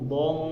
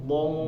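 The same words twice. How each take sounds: Both takes have the same delivery.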